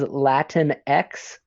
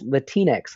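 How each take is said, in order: First: The X is said as a separate letter. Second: The X blends into the word's last syllable. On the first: The speaker calls it wrong. "I hear it said as Latin X a lot" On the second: The speaker calls it right.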